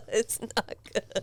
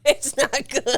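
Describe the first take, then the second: First: Quiet disgusted. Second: Said in the usual way. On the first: Real, not acted.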